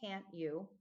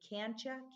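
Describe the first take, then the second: First: Each word is said separately and fully. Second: The words blend together into one reduced word. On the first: The speaker calls it right. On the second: The speaker calls it wrong.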